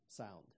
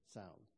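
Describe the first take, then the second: Both takes have the same delivery.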